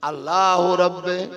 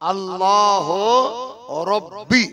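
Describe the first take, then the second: First: The last word ends in an 'e' vowel. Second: The last word ends in an 'ee' vowel. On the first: The speaker calls it wrong. "আল্লাহ রব্বে যে বলছে" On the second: The speaker calls it right. "Actually উচ্চারণ হচ্ছে আল্লাহ রব্বি"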